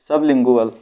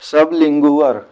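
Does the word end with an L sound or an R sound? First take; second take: L sound; R sound. First: The word ends with an L sound. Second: The word ends with an R sound. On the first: The speaker calls it right. "वल" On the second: The speaker calls it wrong. "ये वर नहीं"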